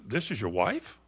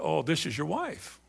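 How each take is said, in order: First: It sounds doubtful and disparaging. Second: It sounds warm and pleased.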